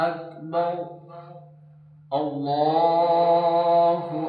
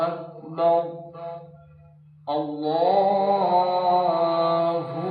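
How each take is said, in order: Both takes have the same delivery.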